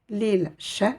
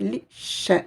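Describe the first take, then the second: First: The l sound is pronounced before the sh. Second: The l disappears and the sh is doubled. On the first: The speaker calls it wrong. "Je ne dirai pas l'il she" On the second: The speaker calls it right. "je vais faire comme si cette lettre n'existait pas... je vais insister sur cette lettre"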